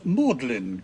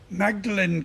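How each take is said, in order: First: It is said in a shortened form. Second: It is said as written, syllable by syllable.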